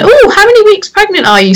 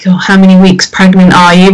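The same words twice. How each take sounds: First: It is said in a cheerful, jovial tone. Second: It is said in a grave, gloomy tone.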